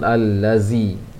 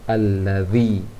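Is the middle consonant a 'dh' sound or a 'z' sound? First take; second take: z; dh. First: The middle consonant is a buzzing z sound. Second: The middle consonant is a soft dh sound. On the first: The speaker calls it wrong. "Jangan al-lazi. Kalau al-lazi itu ke gigi bawah" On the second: The speaker calls it right. "sedangkan al-lazi ke ujung gigi atas"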